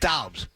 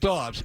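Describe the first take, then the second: First: The vowel sounds like the one in out. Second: The vowel sounds like the one in odd. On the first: The speaker calls it right. "It's Dobbs. D O U B S. Like out" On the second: The speaker calls it wrong. "it's not Dobbs"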